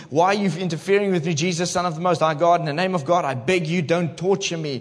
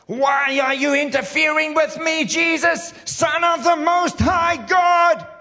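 First: Said in the usual way. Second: Shrieking high demon scream, drawn out; hammed-up possessed man screaming at Jesus. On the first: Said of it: "we're just gonna continue reading". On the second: Preacher acting out the demon shrieking at Jesus, loud and high. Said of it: "Let's act it out".

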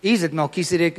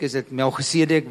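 First: "Melchizedek" said with a hard K, mel-KIZ-e-dek; English pronunciation. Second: "Melchizedek" with a throaty ch, mel-khe-SEE-a-dek; Afrikaans-style pronunciation. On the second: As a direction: say "Melchizedek" the Afrikaans way, low-pitched. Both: Shown as a demonstration. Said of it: "some of the people don't even".

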